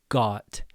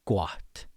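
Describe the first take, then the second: First: The vowel stays steady without opening up. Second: The vowel starts small and opens wider. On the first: The speaker calls it wrong. "not goat or got" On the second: The speaker calls it right. "You open up your mouth as you say the O"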